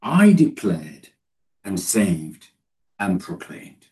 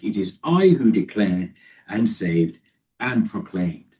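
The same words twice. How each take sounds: First: Said in the usual way. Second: I in it is I leaned on and slowed; stress on I. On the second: Shown as a demonstration. Preacher stressing God's emphatic I to congregation. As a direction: slowly punch the I, then declared and saved. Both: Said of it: "that emphatic".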